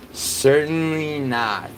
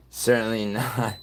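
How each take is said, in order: First: "certainly not" stretched slow and higher; slow, emphatic "certainly not". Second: Said in the usual way. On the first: Shown as a demonstration. Streamer saving Wales for last, slow and emphatic. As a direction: drag out "certainly not" for effect.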